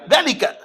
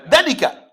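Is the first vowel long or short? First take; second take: short; short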